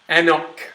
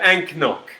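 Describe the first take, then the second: First: No 'k' sound is heard before 'nock'. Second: A 'k' sound is heard before 'nock'. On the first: The speaker calls it right. "We're looking for Anok" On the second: The speaker calls it wrong. "if you want to pronounce it phonetically"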